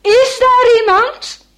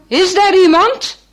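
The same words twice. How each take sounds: First: Calling out much higher and louder, slower. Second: A man calling into the storm, raised voice. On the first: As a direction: shout it into the storm, drawn out. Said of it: "hij roept nog maar eens". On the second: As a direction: call out from the hut door. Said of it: "een zware mannenstem roept". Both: Acted.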